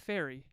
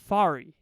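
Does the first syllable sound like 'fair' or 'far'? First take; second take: fair; far. First: The first syllable sounds like 'fair'. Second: The first syllable sounds like 'far'. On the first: The speaker calls it wrong. "not Fairy, not like, not like that" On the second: The speaker calls it right. "my name is Fari"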